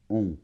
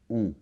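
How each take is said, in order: The two takes are said the same way.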